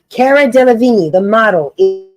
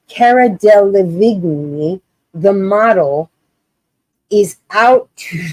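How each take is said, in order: First: It is read with a straight face. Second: It is read while laughing.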